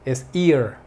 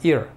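First: The vowel is long and drawn out. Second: The vowel is short and clipped. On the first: The speaker calls it right. "este sí es larguito... lleva como una pequeña pausa" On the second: The speaker calls it wrong. "no es ear"

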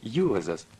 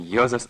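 First: The first vowel glides from u to o. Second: The first vowel is a plain o sound. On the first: The speaker calls it right. "не У, не О, а У, О" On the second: The speaker calls it wrong. "Нет, не Йозас"

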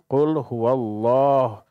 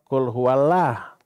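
First: The L is said thick and heavy. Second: The L is said thin and light. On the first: The speaker calls it right. "maka wajib tafhim. Dengan menyatakan Allah" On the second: The speaker calls it wrong.

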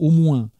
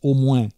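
First: It is said in standard French pronunciation. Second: It is said with a southern local pronunciation. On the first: "et finissent par « au moins »" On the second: "qu'on prononce « au moins »"

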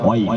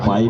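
First: The word begins with a W sound. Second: The word begins with a P sound. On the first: The speaker calls it right. "বলুন ওয়াইপ" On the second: The speaker calls it wrong. "আরে পাইপ নয়"

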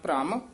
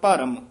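First: The bh and r are run quickly together. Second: A full vowel separates the bh and r. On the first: "ਛੇਤੀ ਬੋਲਣਾ ਹੈ" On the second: "ਰਾਰਾ ਪੂਰਾ ਹੋਵੇ"

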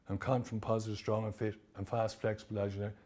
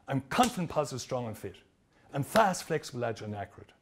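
First: It is said flatly, without energy. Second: It is said with energy and emotion.

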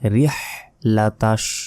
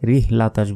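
First: The h comes deep from the throat. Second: The h is a light, breathy sound. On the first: The speaker calls it right. "গলার ভেতর থেকে এই বড় হাটি উচ্চারণ করতে হবে" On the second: The speaker calls it wrong. "অনেকে এখানে ভুল উচ্চারণ করি"

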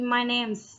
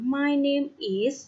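First: Said quickly, with 'name is' contracted. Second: Said clearly, with 'name is' as separate words.

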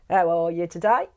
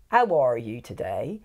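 First: It is said in a Norfolk accent. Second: It is said in a Somerset accent.

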